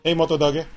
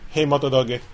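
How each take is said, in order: First: It is said in an excited tone. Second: It is said in a calm tone.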